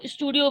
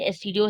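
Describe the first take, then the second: First: It is said as one word, like 'studio'. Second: The letters S, T, D are spoken separately. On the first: The speaker calls it wrong. "इसको स्टूडियो बिल्कुल मत बोलिएगा" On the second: The speaker calls it right. "ये एसटीडियो है याद से"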